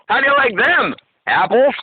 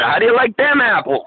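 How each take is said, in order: First: The line is split by oddly placed breaks. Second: The line flows with its usual phrasing. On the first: The speaker calls it wrong. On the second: The speaker calls it right.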